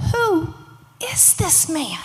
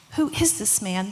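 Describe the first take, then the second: First: Higher, drawn-out disbelief; astonished question, each word weighed; amazed disciples. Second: Said in the usual way. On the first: Acted. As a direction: ask it slowly in wonder, pitched up. Awed disciples after the storm stills.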